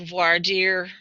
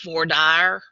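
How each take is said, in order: First: It is said with a French pronunciation. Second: It is said with a Texan English pronunciation. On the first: This is the original form of the term. "in Old French" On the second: This is how locals say the term. "we live in Texas, so everybody says"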